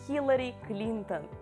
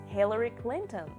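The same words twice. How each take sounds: First: It has a raspy Russian 'kh' and Russian vowels. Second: It has an English 'h' and English vowels.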